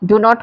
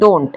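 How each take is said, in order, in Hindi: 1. यह दो अलग-अलग पूरे शब्दों की तरह बोला जाता है। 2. यह एक कॉन्ट्रैक्टेड अक्षर की तरह बोला जाता है।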